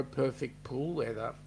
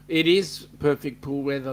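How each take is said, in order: First: Said in the usual way. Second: "is" punched, much louder; stress on is. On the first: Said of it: "It is perfect pool weather, let me say". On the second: Shown as a demonstration. Host agrees with a viewer's weather, stressing "is". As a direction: lean hard on "is" to agree. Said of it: "let me say".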